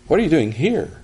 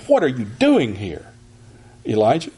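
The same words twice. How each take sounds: First: Weight on "here", an inviting question; emphasis on here. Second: Rebuking demo reading; rebuke. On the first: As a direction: lean on the word "here" gently. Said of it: "I think the emphasis is on here". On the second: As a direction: stress on "What", a scolding question. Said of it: "we might say it like this if we think this is a rebuke". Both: Shown as a demonstration.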